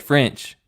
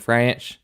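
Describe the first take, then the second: First: Said in the usual way. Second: Put-on French drawled as "Franch" in Tennessee accent; strong Tennessee twang turning French into "Franch"; wife's Tennessee accent. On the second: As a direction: imitate a Tennessee wife saying French like "ranch". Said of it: "wife's got a pretty strong one".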